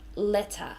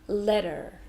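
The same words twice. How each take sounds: First: The middle consonant is a crisp T sound. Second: The T sounds like D and R is heard. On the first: "in British English, they would definitely say the T sound" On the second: "they also changed the T to a D sound, but they do pronounce the R"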